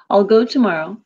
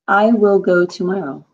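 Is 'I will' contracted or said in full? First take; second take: contracted; full. First: 'I will' is reduced to one syllable like 'all'. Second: Both words 'I will' are said in full. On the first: The speaker calls it right. "Sounds like all" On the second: The speaker calls it wrong. "most people don't say"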